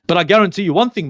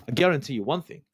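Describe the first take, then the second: First: Louder, hammering the word guarantee; emphatic loud promise. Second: Said in the usual way. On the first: Real, not acted. Host warns fans, loud and emphatic. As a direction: punch it out like a firm vow to the fans.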